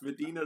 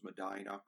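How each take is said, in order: First: It is said with the widespread standard pronunciation. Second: It is said with the local Ohio pronunciation. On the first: This is how the name is said elsewhere. "It's Medina to the rest of the world" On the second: This is how the name is said locally. "the only place in the world where we pronounce this as Medina"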